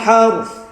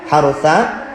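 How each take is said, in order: First: The final vowel is only half pronounced. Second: The final vowel is pronounced in full. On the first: This is the form used when stopping here. "kalau waqaf jadi wala tasqil harth" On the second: This is the original form with the vowel. "asalnya ada harokat fathah"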